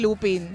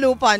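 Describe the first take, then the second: First: The second syllable sounds like 'pin'. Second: The second syllable sounds like 'pan'. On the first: This is the pronunciation from childhood. "hindi Lupin" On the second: This is the newer pronunciation. "sanay ako ng Lupan"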